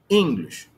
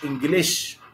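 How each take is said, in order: First: The stress is on the first syllable. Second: The stress is on the second syllable. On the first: The speaker calls it right. "The stress is on the first syllable" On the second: The speaker calls it wrong. "مش English"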